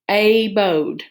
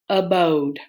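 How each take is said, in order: First: The first vowel is a long A sound. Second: The first vowel is a weak schwa sound. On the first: The speaker calls it wrong. "that open syllable when A says A" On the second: The speaker calls it right. "I'm going to try my schwa"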